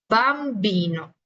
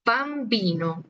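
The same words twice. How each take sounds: First: Bambino at half speed, strong b; slow marked b. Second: Said in the usual way. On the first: Shown as a demonstration. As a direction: pop the b in bambino slowly. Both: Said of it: "marcamos mucho el tema de la B".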